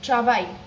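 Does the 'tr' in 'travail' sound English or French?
English. The r is hard and made at the front. The speaker calls it wrong. "and not like travail"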